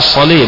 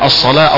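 First: The final long vowel is tilted toward 'e'. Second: The final long vowel is an open 'a'. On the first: The speaker calls it wrong. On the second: The speaker calls it right.

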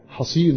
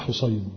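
First: The first syllable has an open 'a' vowel. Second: The first syllable has a vowel other than 'a'. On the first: The speaker calls it right. "عن أبي حصين بالفتح" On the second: The speaker calls it wrong. "وليس حصين"

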